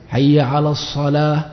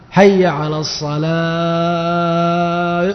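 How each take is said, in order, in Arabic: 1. الحركات قصيرة ومقطوعة، من غير لحن. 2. الحركات ممدودة جدًا وطويلة وفيها لحن. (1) "هذا الجزم" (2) "مد 60 مدا"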